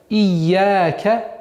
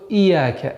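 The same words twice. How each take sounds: First: The y sound in the middle is held long. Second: The y sound in the middle is short. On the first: It means 'to you'. The speaker calls it right. "нужно быть осторожным при произношении, чтобы удвоенный знак не аннулировался" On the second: It addresses a sunbeam. The speaker calls it wrong. "чтобы она не перешла в"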